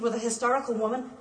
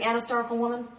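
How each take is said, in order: First: Said in the usual way. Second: "an" said clearly and leaned on before "hysterical"; stress on an. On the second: Shown as a demonstration. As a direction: correct it, pressing "an hysterical". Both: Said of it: "Shouldn't that be an hysterical woman?".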